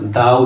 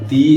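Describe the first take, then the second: First: The word ends in an 'uh' vowel. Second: The word ends in an 'ee' vowel. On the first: The next word starts with a consonant. "কখন এটা দা উচ্চারিত হয়" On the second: The next word starts with a vowel. "কখন এটা দি"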